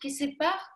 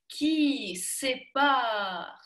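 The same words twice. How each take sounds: First: The sounds are squeezed with little mouth movement. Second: The sounds are open with wide mouth movement. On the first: The speaker calls it wrong. "все было очень сжато" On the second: The speaker calls it right. "когда есть размах такой, когда рот работает"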